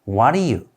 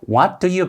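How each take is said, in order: First: The words run together, sounding like what are you. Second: Each word is said separately and clearly. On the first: The speaker calls it right. "what are you, what are you 이렇게 발음이 됩니다" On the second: The speaker calls it wrong. "what do you가 아니라"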